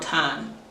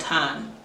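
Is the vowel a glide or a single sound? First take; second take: single; single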